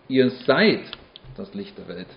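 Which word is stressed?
seid. The stress is on the word 'seid'. It is true right now, not in the past or future. "Nicht ihr wart schon mal das Licht der Welt"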